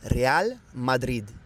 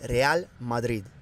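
Both takes have the same delivery.

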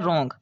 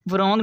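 First: The w at the start is silent. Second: The w at the start is sounded. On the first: The speaker calls it right. "ये होता है रोंग" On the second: The speaker calls it wrong. "वरोंग नहीं पढ़ना"

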